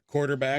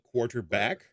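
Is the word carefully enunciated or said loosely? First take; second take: loosely; enunciated. First: The sounds in the word are said loosely. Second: Every sound in the word is carefully enunciated. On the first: The speaker calls it wrong. "not quarterback" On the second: The speaker calls it right. "which we need to say uh, properly, like quarterback"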